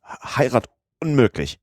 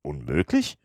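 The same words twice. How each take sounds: First: High, stuttered bad news; flustered servant struggling to get words out; agitated stammer. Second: Low, soft questioning echo of "Unmöglich"; "Unmöglich" as an unruffled, quiet question; composed query. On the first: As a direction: stammer it out urgently, falling at the end. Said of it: "stotterte Passepartout". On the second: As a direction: say "Unmöglich" coolly with a rising end. Calm master questions stammering servant. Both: A narrator's reading.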